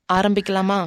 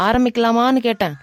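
First: Said in the usual way. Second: Repeating ஆரம்பிக்கலாமான்னு a little louder and firmer; impatient repeat, stressing ஆரம்பிக்கலாமான்னு; slightly louder repeat. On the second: Acted. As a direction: say it again, pressing her for an answer.

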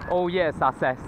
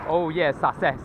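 No difference in how they are said.

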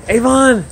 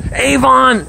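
First: High call of the dog's name. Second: High, bright call of the dog's name. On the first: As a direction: call him across the yard. Calling his dog again. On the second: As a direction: call him over from across the yard. Calling his dog by name. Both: Real, not acted.

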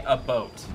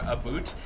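First: "a boat" with a plain oh vowel; "a boat", plain Canadian vowel; correct "a boat". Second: Joking wrong "a boot"; mock "a boot". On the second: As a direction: say "a boot" as outsiders imagine Canadians do. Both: Shown as a demonstration. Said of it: "Canadians say".

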